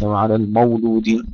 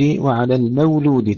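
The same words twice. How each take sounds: First: المولود with a thick, dark م and و; heavy mim and waw. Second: المولود with a thin, light م and و; light mim and waw. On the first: Teacher shows the thickened mistake, wrong. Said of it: "ليس". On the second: Teacher models light mim and waw, correct. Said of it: "ترقيق الميم والواو". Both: Shown as a demonstration.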